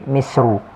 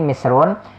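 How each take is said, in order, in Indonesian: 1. Kata ini diakhiri dengan vokal, bukan n. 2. Kata ini diakhiri dengan bunyi n. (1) "bisa juga dibaca ghairu munsharif. Jadi misru" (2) "munsharif bertanwin misrun"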